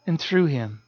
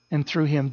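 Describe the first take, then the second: First: Second and through him, quieter; stress on through. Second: THROUGH leaned on, falling; and through him, pressed home; stress on through. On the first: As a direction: repeat THROUGH, softer and falling. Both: Shown as a demonstration.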